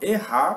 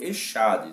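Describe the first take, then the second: First: It is pronounced the Hebrew way. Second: It is pronounced the Portuguese way. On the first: "eu falo errar, porque é assim que se lê" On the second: "a gente lê em português Echade"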